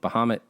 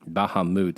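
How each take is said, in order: First: The name is said with an English-style pronunciation. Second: The name is said with an Arabic-style pronunciation. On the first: The speaker calls it wrong. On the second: The speaker calls it right.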